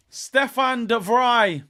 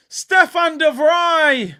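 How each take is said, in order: First: Said in the usual way. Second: Scorer's name bellowed slowly and high; stretched roar of "Stefan de Vrij"; shouted name. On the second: Real, not acted. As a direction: drag out Stefan de Vrij in a big yell.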